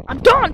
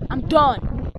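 First: Higher, louder I'm done; pretend fed-up yell. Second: Said in the usual way. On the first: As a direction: snap it back, fed up. Toy play, repeated louder.

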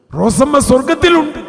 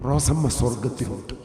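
First: Much higher and louder, സ്വർഗത്തിലുണ്ട് ringing out; preacher repeating the prophecy in a loud cry; triumphant proclamation. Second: Said in the usual way. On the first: Retold or imitated. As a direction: shout the good news to the hall.

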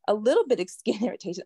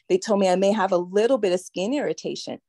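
First: Quick, disbelieving echo with a laugh; laughing mock repeat. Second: Said in the usual way. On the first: Survivor echoing what doctors told her, laughing bitterly. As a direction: scoff at the understatement with a short laugh.

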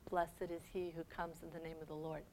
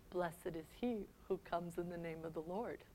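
First: Much softer, low and mournful; soft grieving blessing. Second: A broken whisper; whispered blessing. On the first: Jesus weeping over Jerusalem, soft and low. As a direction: let it fade in grief. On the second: Jesus lamenting Jerusalem, in a hushed whisper. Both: Acted. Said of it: "starts to cry".

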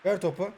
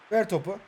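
The two takes are said the same way.

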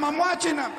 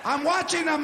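First: Put-on drunk shout. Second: Said in the usual way. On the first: Drunk uncle yelling at a kid's birthday. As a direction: yell it out like a drunk at a party. Drunk man acting out at party.

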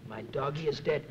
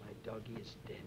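First: Said in the usual way. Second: "My doggy is dead" whispered to oneself, breathy and much softer. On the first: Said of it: "I started thinking". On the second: Shown as a demonstration. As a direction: breathe the words under your breath. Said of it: "I said, to myself".

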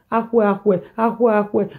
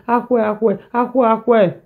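No difference in how they are said.

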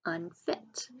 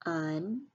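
First: Said in the usual way. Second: "Unfit" split as Un, long pause, fit; teacher breaking "Unfit" into separate syllables. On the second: Shown as a demonstration. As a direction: sound out "Unfit" in two parts. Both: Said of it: "sound it out by syllables".

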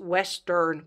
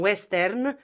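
First: "western" with the English reduced "earn" ending; English pronunciation. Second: "western" said the Romanian way, with a full e and sounded r; Romanian pronunciation. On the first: Teacher correcting the Romanian habit, English-style "western". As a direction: say "western" in English, second vowel a neutral uh. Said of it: "în engleză însă pronunți western cu a". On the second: Teacher showing how Romanians say it, Romanian-style "western". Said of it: "așa românește". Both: Shown as a demonstration.

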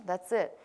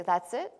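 First: "that's it" as a plain confirming answer; answering statement. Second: Rising question on "That's it?"; questioning rise. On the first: Teacher answering the students' question, "that's it" as a settled statement. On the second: Students seeing it is not frightening, "That's it?" as a rising question. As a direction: say "That's it?" as a question, lifting the end of IT. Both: Acted. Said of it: "you'll say".

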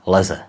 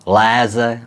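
First: Leze with a short first E; clipped-length first vowel in leze, not held. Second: Léze with the first E held long; teacher contrasting a word pair, long first vowel in léze. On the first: Teacher showing vowel length to learners, short E in leze. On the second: Teacher showing vowel length to learners, long E in léze. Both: Shown as a demonstration. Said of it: "dlouhé a krátké E".

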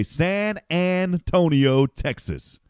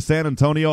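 First: Radio announcer flourish. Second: Said in the usual way. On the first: Shown as a demonstration. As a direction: draw out each syllable of San Antonio like an announcer. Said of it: "I'd always say". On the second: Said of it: "instead of San Antonio".

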